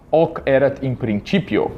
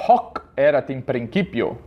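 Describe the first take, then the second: First: Slow church Latin, silent H in "Hoc"; ecclesiastical Latin. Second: "Hoc" with a sounded H and "principio" with a hard k; classical Latin. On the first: Teacher contrasts the silent church-Latin H. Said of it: "como na pronúncia, é, eclesiástica". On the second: Teacher shows the H is sounded in classical Latin. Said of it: "E o H também soa". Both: Shown as a demonstration.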